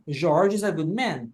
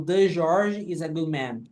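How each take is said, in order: First: Said in the usual way. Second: Slow, deliberate wrong version with "The George"; wrong example. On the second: Shown as a demonstration. Teacher showing students the mistake to avoid, slow and careful. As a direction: stress "The" in "The George" to show the error. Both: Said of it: "Eu não falo".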